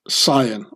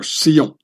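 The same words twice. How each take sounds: First: The name is said with an English pronunciation. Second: The name is said with a French pronunciation.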